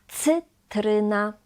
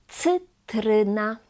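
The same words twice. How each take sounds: The two takes are said the same way.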